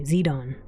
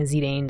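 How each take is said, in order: First: Zidane said as zee-DAHN; canonical pronunciation. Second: Zidane said as zee-DANE; habitual pronunciation. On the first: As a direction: say Zidane with "zee" and an "ah" in the second syllable. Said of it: "Zidane is the canonical pronunciation". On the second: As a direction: say Zidane with a long "ay", rhyming with Dane. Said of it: "I keep saying Zidane, though". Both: Shown as a demonstration.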